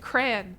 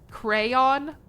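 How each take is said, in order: First: The word is said with one syllable. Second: The word is said with two syllables. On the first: It is the plain everyday form. The speaker calls it right. "It's just a crayon" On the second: It sounds posh and British. The speaker calls it wrong. "What is this? Buckingham Palace?"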